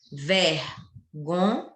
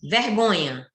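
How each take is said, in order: First: "Vergonha" slowly split into three syllables with long gaps; slow, segmented "Vergonha". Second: Said in the usual way. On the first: Shown as a demonstration. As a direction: count out "Vergonha" piece by piece, pausing between syllables. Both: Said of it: "Tem três sílabas".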